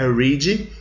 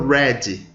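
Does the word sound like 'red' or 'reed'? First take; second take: reed; red. First: The word has a long 'ee' vowel. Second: The word has a short 'e' vowel. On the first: It is the present tense. "Aqui é read" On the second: It is the past tense. "quando vai para o passado vai para red"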